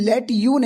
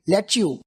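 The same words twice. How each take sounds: First: The two words are said separately and fully. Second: The two words are blended into one reduced form. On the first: The speaker calls it wrong. "नेटिव speakers को देखना तो वो लेट यू नहीं बोलेंगे" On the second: The speaker calls it right. "Contraction मतलब short form, मिला के बोलना"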